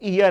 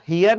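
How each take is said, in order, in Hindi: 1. इस शब्द की शुरुआत स्वर ध्वनि से होती है। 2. इस शब्द की शुरुआत h ध्वनि से होती है। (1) "इसका एच साइलेंट होता है" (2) "वो हियर नहीं है"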